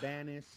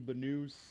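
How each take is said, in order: First: The name is said in an Australian manner. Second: The name is said in a European manner. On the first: This is how people in Australia say the name. "the Australians call me Banis" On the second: This is how people in Europe say the name. "the Europeans call me Banus"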